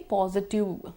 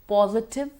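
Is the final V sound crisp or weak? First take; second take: weak; crisp. First: The final V sound is weak or missing. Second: The final V sound is crisp and audible. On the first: The speaker calls it wrong. "People tend to say positive" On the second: The speaker calls it right. "We have to make sure there's the V"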